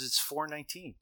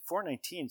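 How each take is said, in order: First: Said in the usual way. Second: "four nineteen?" raised higher with a baffled lift; puzzled echo. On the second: Retold or imitated. Pastor repeats John's verse number back, puzzled.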